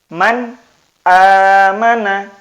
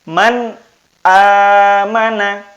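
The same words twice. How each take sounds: The two takes are said the same way.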